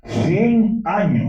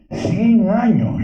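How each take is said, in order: First: "Cien" rises high and loud, drawn slow; stress on cien. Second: "Cien" even higher and louder, slow; stronger stress on cien. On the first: Orator stresses centenary. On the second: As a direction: hit "Cien" hardest, very high. Orator repeats with more force. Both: Acted.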